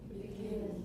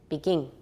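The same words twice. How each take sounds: First: It ends with a short i and plain n. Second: It ends with an ng sound like 'ing'. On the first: The speaker calls it right. "後面的才是正確的" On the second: The speaker calls it wrong. "in Taiwan English, it often is begin"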